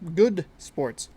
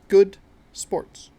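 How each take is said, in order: First: The words are said loosely and run together. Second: Each word is said crisply and clearly. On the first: The speaker calls it wrong. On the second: The speaker calls it right.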